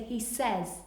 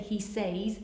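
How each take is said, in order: First: The vowel in the word is an 'eh' sound. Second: The word is sounded out as spelled. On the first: The speaker calls it right. "we say he says" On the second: The speaker calls it wrong. "we don't say he says"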